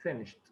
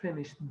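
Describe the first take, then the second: First: "finished" said as finisht, ending on a short t; lower, clipped "finished" ending on t; correct pronunciation. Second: "finished" said as finish, with no t at the end; wrong pronunciation demo. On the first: Teacher correcting the wrong take, lower, finisht with a final t. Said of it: "لا". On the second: Teacher showing students the wrong way, finish with no ending. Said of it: "مش finish". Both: Shown as a demonstration.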